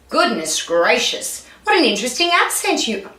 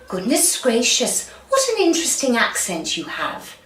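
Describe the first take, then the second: First: It is said in a plain voice. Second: It is said in a posh British accent.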